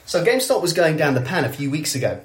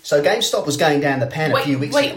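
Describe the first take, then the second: First: It is spoken in an English accent. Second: It is spoken in an Australian accent. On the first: "I'll do it in English" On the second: "Why are you doing an Australian accent?"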